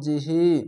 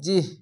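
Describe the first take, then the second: First: The final vowel is drawn out long. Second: The word ends on a bare consonant. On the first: The reading continues without stopping. "খারজের এক আলিফ টেনে পড়তে হয়" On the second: The reader stops at this word. "থামার জায়গায় যদি আসে বা থামেন তাহলে এইগুলো সাকিন দিতে হবে"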